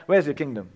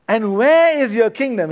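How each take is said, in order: First: Said in the usual way. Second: Loud, higher mock-skeptical "where is your kingdom"; sarcastic question. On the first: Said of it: "he asks". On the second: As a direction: challenge him with a sneering question. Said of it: "in a little bit of sarcasm".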